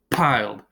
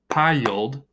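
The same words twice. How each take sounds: First: Piled said as one falling beat, pyld; piled in one unbroken beat; piled in one syllable. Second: Piled said as PIE-uld, rising; piled broken after the long i, pie-uld; piled in two syllables. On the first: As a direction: say piled as a single syllable rhyming with mild. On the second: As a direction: stretch piled into two beats, pie-yuld. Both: Shown as a demonstration. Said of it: "we could say piled two different ways".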